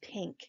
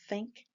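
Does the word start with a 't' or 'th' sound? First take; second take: t; th. First: The word starts with a 't' sound. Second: The word starts with a 'th' sound. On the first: "think becomes tink" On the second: "the English T H sound"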